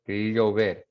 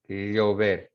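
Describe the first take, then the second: The two takes are said the same way.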